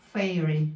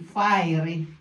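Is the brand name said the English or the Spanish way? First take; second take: English; Spanish. First: The name is said like English 'fairy tales'. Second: The name is said with a Spanish-style pronunciation. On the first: The speaker calls it right. "but it's fairy, like fairy tales" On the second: The speaker calls it wrong. "Spanish say fiery"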